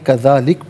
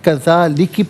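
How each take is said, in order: First: The word ends on a bare consonant. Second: The word ends with a short final vowel. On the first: The reader pauses here. "वक़्फ़ की सूरत में कज़ालिक पढ़ेंगे" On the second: The reading continues without stopping. "इसे नाज़रीन कज़ालिकि पढ़ेंगे"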